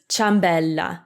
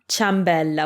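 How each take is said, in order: First: The i is silent, starting with cha. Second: The i is silent, starting with cha.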